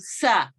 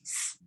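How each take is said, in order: First: The s sound ends with a short schwa vowel. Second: The s sound is hissed alone without a vowel. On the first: The speaker calls it wrong. "pronouncing simple sounds like s with a schwa, saying sa. It's not sa" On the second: The speaker calls it right. "it's s"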